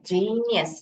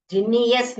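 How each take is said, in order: First: जीनियस with a long first जी and short नियस; correct pronunciation. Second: जीनियस with a heavy, long NEE; mispronunciation demo. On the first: Teacher gives the right reading, first syllable held in जीनियस. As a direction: stress the start of जीनियस, glide lightly through the rest. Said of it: "जीनियस नहीं है, जीनियस". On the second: Teacher rejects this reading, overstressed middle of जीनियस. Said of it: "जीनियस नहीं है". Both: Shown as a demonstration.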